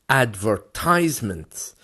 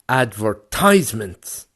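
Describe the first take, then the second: The two takes are said the same way.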